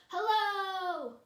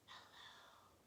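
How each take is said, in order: First: It is said loudly. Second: It is said quietly.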